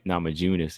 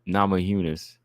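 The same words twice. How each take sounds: First: The name begins with a J sound. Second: The name begins with a Y sound. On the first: The speaker calls it wrong. "some people say Namajunas" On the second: The speaker calls it right. "with the Y"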